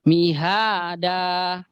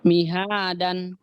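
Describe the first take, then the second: First: The word ends in a long vowel without n. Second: The word ends with a clear n sound. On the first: The reading stops at this word. "kalau kita berhenti, waqaf, maka dannya ini uh, dipanjangkan" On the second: The reading continues without stopping. "Itu kan seharusnya kalau kita lanjut"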